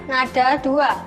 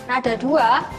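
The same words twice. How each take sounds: The two takes are said the same way.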